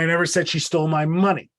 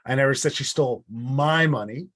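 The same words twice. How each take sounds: First: The word 'money' carries the main stress. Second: The word 'my' carries the main stress. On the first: Something more than the money was taken. "it wasn't the money, it was my whole wallet that was stolen" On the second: It was someone else's money. "It wasn't my money that was stolen, it was theirs"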